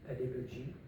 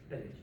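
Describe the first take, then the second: First: The word is said at a normal pace. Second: The word is said very quickly.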